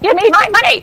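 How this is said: It is said in an old man's voice.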